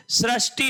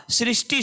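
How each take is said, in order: First: सृष्टि said "srash-ti", with ra; an a vowel after sr in सृष्टि; wrong pronunciation demo. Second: सृष्टि said "srish-ti", with ri; an i vowel after sr in सृष्टि; correct pronunciation model. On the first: Teacher rejecting the wrong word, सृष्टि as "srashti". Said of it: "सृष्टि नहीं होता". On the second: Teacher correcting for students, सृष्टि as "srishti". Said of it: "सृष्टि शब्द होता है". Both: Shown as a demonstration.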